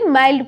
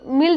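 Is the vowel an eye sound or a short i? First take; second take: eye sound; short i. First: The vowel is an eye sound. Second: The vowel is a short i sound. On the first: The speaker calls it right. "माइल्ड पढ़ेंगे" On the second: The speaker calls it wrong. "इसे मिल्ड मत मिल्ड नहीं पढ़ेंगे"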